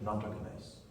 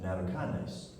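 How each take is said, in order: First: The word is pronounced the Japanese way. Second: The word is pronounced the English way. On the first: "Japanese pronounce it" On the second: "but we pronounce it"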